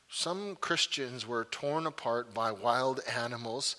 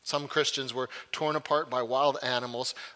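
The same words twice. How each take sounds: First: It is read slowly. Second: It is read at normal speed.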